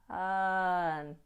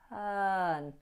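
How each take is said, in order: No difference in how they are said.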